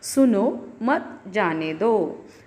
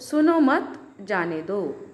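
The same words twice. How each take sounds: First: There is a pause after 'सुनो'. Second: There is a pause after 'मत'.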